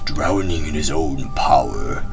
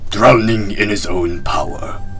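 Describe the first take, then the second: First: It is read in a plain, normal voice. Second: It is read in a put-on ninja voice.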